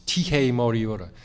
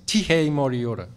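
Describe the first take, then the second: First: Tihei Māori ora with tapped r sounds; Māori pronunciation. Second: Tihei Māori ora proclaimed louder; ceremonial call. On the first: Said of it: "a phrase which is from Māori protocol". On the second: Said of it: "you start by saying". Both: Shown as a demonstration.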